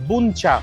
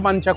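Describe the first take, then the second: First: The first vowel is a rounded 'oo' sound. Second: The first vowel is an open 'a' sound. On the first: The speaker calls it right. "Actual উচ্চারণটা হচ্ছে বুনচা" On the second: The speaker calls it wrong. "যেটাকে আমি বাঞ্চা বাঞ্চা করে এলাম"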